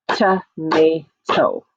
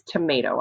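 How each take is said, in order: First: "Tomato" in three slow, separated beats; syllable by syllable. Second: Said in the usual way. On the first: Shown as a demonstration. Teacher claps syllables with children, "Tomato" split into three beats. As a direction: break "Tomato" into to, ma, to with pauses between. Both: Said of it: "Are you ready to clap with me?".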